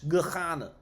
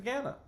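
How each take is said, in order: First: The opening H sound is strong and clear. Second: The opening H sound is weak or absent.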